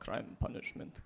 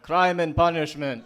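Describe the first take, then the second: First: It is mumbled quietly to himself. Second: It is said a little louder.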